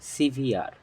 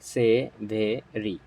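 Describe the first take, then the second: First: It has two syllables, ending in 'veer'. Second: It has three syllables, ending in 'ee'. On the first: The speaker calls it right. "It's সিভিয়ার" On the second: The speaker calls it wrong. "It's not সেভেরি"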